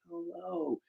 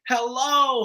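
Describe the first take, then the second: First: It is said weakly and faintly. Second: It is shouted loudly.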